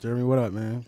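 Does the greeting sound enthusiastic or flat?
flat. The greeting sounds flat and low-energy. The speaker calls it wrong. "That was not enthusiastic"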